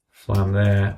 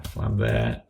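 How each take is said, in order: First: Said in the usual way. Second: A low, soft mutter of flam there while typing; muttered to self. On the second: Real, not acted. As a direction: drop the voice and mutter it to yourself. Counting flams while entering notes.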